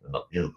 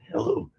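First: Said in the usual way. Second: High squeaky robot hello; failed robot voice try. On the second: Shown as a demonstration. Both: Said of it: "Fuck, I can't do it".

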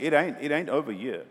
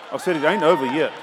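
First: Said in the usual way. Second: Louder insistent repeat. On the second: Shown as a demonstration. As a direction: say it again, louder.

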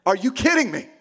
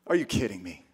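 First: Mildly exasperated, indignant outburst; a touch of angry disbelief in full voice; acted anger. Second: Low, soft acted disbelief; hushed, dismayed question; stunned disbelief. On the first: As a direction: throw the question out in mock outrage. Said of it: "I am so angry right now". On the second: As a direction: drop the voice low, as if too stunned to shout. Acting Joseph hearing the pregnancy news.

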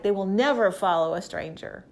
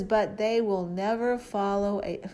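First: Never pressed firmly, a little louder; They will never follow a stranger, with never stressed hard; emphatic. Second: Said in the usual way. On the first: Shown as a demonstration. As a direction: hammer the word never like Jesus would. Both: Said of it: "Jesus is so emphatic".

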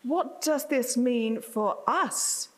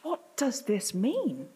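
First: Slow quoted question, landing on "us"; stress on US. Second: Slow question, pitch leaping on "mean"; stress on MEAN. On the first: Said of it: "to quote a well-known local speaker". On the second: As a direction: draw out the question and peak on "mean". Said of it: "are left with the question". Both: Retold or imitated.

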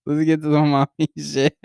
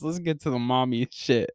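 First: Real laugh bursting through the words; breaking into laughter. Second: Said in the usual way. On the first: Real, not acted. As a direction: crack up on the last words. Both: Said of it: "I'm already fucking laughing".

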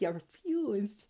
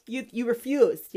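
First: "refused" said softer and slowly; quiet slow repeat. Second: "refused" hit firmly at normal level; firm accusation. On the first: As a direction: let "You refused" sink in, quiet and slow. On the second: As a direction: press the word "refused". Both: Acted. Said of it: "God says these to the transgenders".

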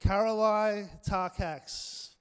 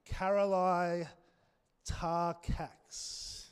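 First: "Karolai Tarkax" very slow, louder and higher, stress on "Karolai"; confident name announcement. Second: Slow, careful first try at "Karolai Tarkax"; tentative name reading. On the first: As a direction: commit to "Karolai Tarkax" and proclaim it. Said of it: "but we'll go with that". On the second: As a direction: feel your way through "Karolai Tarkax" unsure of it. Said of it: "I don't know if that's how you pronounce it". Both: Shown as a demonstration.

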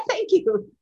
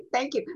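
First: Laughing thanks. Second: Said in the usual way. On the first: Real, not acted. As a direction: thank you through real laughter, louder. Thanks while still laughing.

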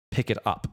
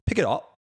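First: Said in the usual way. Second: Cockney: drop the T in it; Cockney "Pick it up" with a glottal stop, a touch higher; Cockney accent. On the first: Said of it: "examples of these first three are like". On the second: Shown as a demonstration. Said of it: "you don't hear the T".

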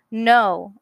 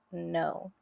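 First: "No," said much louder with confidence; standing up for herself with a loud "No,". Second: A soft, low "No."; small frightened "No.". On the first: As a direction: push out a firm, loud "No,". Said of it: "I said louder". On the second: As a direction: breathe out "No." quietly and much lower. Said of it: "I softly said". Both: Acted.

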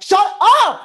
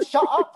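First: Loud, high "Shut up!"; "Shut up!" shouted loud and high; full mock yell. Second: Mild mock yell. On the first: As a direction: bark "Shut up!" hard. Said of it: "a complete asshole and be like". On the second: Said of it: "I'll just yell at them".

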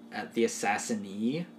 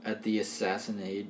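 First: Assassinee said ass-ass-in-EE, ending in a long ee; settling on assassinee with a rising ee; trying out assassinee; corrected word. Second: Assassinate said as ass-ASS-in-ate, ending in -ate; fumbling toward assassinate with a hard -ate; stumbling over assassinate; wrong word. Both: Shown as a demonstration. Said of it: "if that's a word".

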